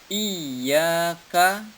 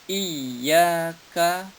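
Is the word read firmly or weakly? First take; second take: firmly; weakly. First: The word is read firmly. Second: The word is read weakly, not firmly. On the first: The speaker calls it right. "Iyyaka dibaca mantap" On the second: The speaker calls it wrong.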